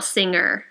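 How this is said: It ends with an r sound, American style.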